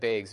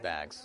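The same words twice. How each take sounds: First: The vowel has the Wisconsin accent sound. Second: The vowel has the standard accent sound. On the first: "we have bags in Wisconsin" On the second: "We don't have bags"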